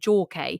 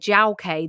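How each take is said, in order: First: The first name sounds like 'jaw'. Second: The first name sounds like 'jiao'. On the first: "I read it as it's J A W, as in jaw" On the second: "if it was actually Jiao, because that sounds more of a Chinese name"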